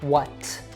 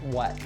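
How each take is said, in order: First: The final T is strongly released. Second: The final T is a glottal stop. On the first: The speaker calls it wrong. "not what with a really strong T at the end" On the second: The speaker calls it right. "it would probably be a glottal T"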